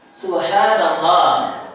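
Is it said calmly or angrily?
calmly. It is said calmly, in a normal voice.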